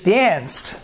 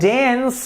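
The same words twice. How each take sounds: First: The ending is a plain t sound. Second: The ending is not a plain t sound. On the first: The speaker calls it right. "we pronounce it with a T sound" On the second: The speaker calls it wrong. "so it is not danced"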